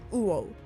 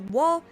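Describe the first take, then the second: First: It begins with a full u vowel. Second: It begins with a w glide sound. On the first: This literal reading echoes the fish Devil Fruit. "when read literally, it's more like uo" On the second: This is the usual reading of the laugh. "read to be pronounced to be wo"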